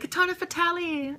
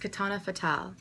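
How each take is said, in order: First: The last name ends with an Italian-sounding ending. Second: The last name ends plainly, not Italian-sounding. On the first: This is how other people mispronounce the name. The speaker calls it wrong. "Is that an Italian version of me?" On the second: This is how the speaker says her own name. The speaker calls it right. "my name is"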